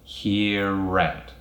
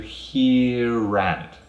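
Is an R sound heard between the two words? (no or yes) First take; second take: yes; yes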